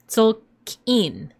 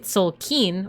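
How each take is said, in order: First: It is said with a glottal stop before kin. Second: It is said smoothly with no glottal stop. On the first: The speaker calls it right. "You would say Tolkien. Kien" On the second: The speaker calls it wrong. "you don't say Tolkien"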